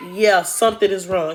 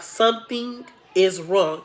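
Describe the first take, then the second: First: Said in the usual way. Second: Drawn-out, deliberate "Something is wrong"; retold grave verdict, slowly spaced; slow, weighty verdict. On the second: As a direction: stretch "Something", then land "is wrong". Doctor's verdict repeated slower for weight.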